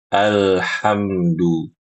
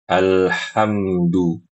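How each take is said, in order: No difference in how they are said.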